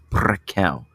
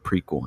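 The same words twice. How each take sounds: First: The word is pronounced in a French way. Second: The word is pronounced like English 'prequel'. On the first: The speaker calls it right. "It's Prequel. It's French" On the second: The speaker calls it wrong. "It's not prequel or prequel"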